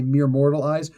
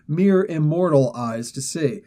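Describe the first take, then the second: First: Said in the usual way. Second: "immortal" spelled out slowly in place of "mortal"; slow, deliberate weight on "immortal"; stress on immortal. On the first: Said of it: "we say mere mortal eyes". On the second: Shown as a demonstration. Host savoring the comic's wording, slow stress on "immortal". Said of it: "I love that they threw that in".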